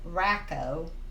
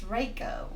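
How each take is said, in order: First: The first vowel is short, as in 'rack'. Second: The first vowel is long, as in 'race'. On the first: The speaker calls it wrong. "A lot of people pronounce this ... Racco is spelled C K" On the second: The speaker calls it right. "and this is just C, so it's Raco"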